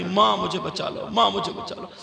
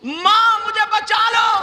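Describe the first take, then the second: First: Said in the usual way. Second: High, loud chanted cry for help; screamed plea. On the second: Acted. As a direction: cry out and hold the last note. (चीख़ती हुई ऊँची पुकार) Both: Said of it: "लड़की चीखने लगी, चिल्लाने लगी".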